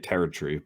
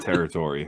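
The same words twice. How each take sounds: First: The word is said in a British accent. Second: The word is said in an American accent.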